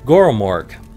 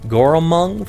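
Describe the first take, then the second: First: The name ends with a 'morg' sound. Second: The name ends with a 'mung' sound. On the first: The speaker calls it right. "Goromorg is what I should be pronouncing it as" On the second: The speaker calls it wrong. "I always tend to pronounce it uh, Goromung for some reason"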